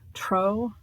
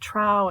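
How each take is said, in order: First: The vowel matches the vowel in 'troll'. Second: The vowel differs from the vowel in 'troll'. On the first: "Tro is actually probably the correct because it's a um, dialectic corruption of the word troll" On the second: "some people pronounce it Trow"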